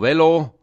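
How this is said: The L sound is short. This is how it is said in the Bern region. "aber sicher nicht mit 2 L"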